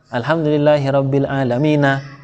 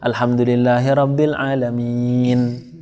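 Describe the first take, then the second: First: The last word ends on a final vowel. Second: The last word stops on a final consonant. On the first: The reader does not pause at the end of the verse. The speaker calls it wrong. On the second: The reader pauses at the end of the verse. The speaker calls it right.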